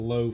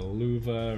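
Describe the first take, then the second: First: The word is said as one syllable. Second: The word is said as two syllables. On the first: The speaker calls it wrong. "I pronounce it wrong" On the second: The speaker calls it right. "I know it's pronounced like uh, luva"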